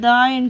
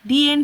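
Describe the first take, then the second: First: The word 'the' is pronounced 'duh'. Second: The word 'the' is pronounced 'dee'. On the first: The speaker calls it wrong. "আমরা কোনো দিন বলি না যে দ্য end" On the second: The speaker calls it right. "আমরা কি বলি যে দি এন্ড"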